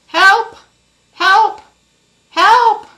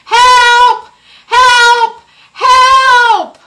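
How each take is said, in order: First: It is called a little louder. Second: It is called really loudly.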